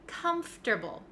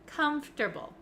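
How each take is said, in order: First: The middle 'or' sound is dropped. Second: The middle 'or' sound is dropped.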